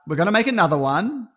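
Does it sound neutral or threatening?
neutral. It is said in a plain, neutral tone.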